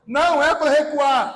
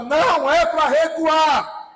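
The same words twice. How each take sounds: First: Said in the usual way. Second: Forceful, drawn-out command; voice of authority. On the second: Shown as a demonstration. Preacher modelling it for the congregation, voice of authority. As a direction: say it with full authority, leaning on each word. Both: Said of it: "Mas fala com voz de autoridade".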